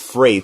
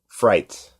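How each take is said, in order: First: The vowel sounds like the one in 'freight'. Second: The vowel sounds like the one in 'fright'. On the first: The speaker calls it right. "It's like F R E I G H" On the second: The speaker calls it wrong. "You you mispronounced it"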